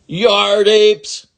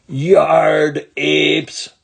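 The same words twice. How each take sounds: First: High, loud furious yell with a long apes; angry yell. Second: Loud yell leaning on yard; angry yell again. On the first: Ramona yells at the boys, high and furious. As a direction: scream the insult at the boys. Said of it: "yelled Ramona". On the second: Ramona yells at the boys, teary and furious. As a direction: hurl it, near tears of rage. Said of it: "she yelled again". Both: Acted.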